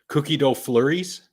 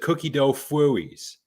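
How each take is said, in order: First: The L sound in flurries is clearly pronounced. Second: The L sound in flurries is dropped. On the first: The speaker calls it right. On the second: The speaker calls it wrong.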